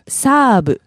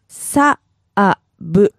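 First: It is said fast at normal speed. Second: It is said slowly, syllable by syllable.

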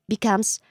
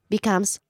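Both takes have the same delivery.

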